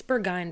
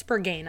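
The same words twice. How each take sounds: First: Berghain with "gine" as the second syllable; "bur-GINE" for Berghain; preferred pronunciation. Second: Berghain with "gain" as the second syllable; "bur-GAYN" for Berghain; rejected pronunciation. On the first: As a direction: say Berghain to rhyme with "line". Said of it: "I think it's Berghain". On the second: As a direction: say Berghain to rhyme with "rain". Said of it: "I don't think it's Berghain". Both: Shown as a demonstration.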